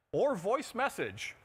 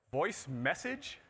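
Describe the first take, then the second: First: Said in the usual way. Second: Slow, drawn-out disbelieving question; incredulous echo. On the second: Real, not acted. Presenter repeating the condom patent wording, incredulous. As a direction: echo the phrase as if you can't believe it.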